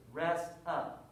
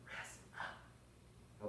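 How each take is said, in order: First: Said in the usual way. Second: Soft unvoiced whisper. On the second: Shown as a demonstration. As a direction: breathe it out silently. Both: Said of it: "but I'm whispering the words".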